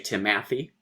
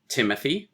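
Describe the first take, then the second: First: The first syllable is not stressed. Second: The first syllable is stressed. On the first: The speaker calls it wrong. "You don't say Timothy ... which would be wrenching the stress" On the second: The speaker calls it right. "stress, unstress, stress"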